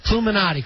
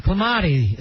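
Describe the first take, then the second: First: Cluminati with all four syllables; "Cluminati" with the NA syllable put in; corrected pronunciation. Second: Clamati said without the NU syllable; "Clamati" as a short misreading of Cluminati; tentative mispronunciation. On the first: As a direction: repeat the name correctly as Cluminati. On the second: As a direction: try the name as Clamati, three syllables. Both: Real, not acted. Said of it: "Is that how you pronounce it".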